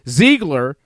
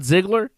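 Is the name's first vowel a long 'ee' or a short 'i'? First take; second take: long ee; short i. First: The first vowel is a long 'ee' sound. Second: The first vowel is a short 'i' sound. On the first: The speaker calls it right. "why I say Ziegler" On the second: The speaker calls it wrong. "not Ziggler"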